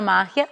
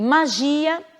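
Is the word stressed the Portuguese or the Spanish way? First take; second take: Spanish; Portuguese. First: The stress falls where Spanish places it. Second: The stress falls where Portuguese places it. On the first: "em espanhol será" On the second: "em português"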